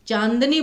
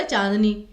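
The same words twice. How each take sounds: First: चांदनी with a clear n before the d; correct n sound. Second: चांदनी with only a nasal vowel and no n sound; wrong nasal vowel. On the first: Teacher giving students the right चांदनी, clear n. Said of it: "चांदनी बोलते हैं". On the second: Teacher showing students the wrong चांदनी, nasalized vowel. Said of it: "चांदनी तो नहीं बोलते ना". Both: Shown as a demonstration.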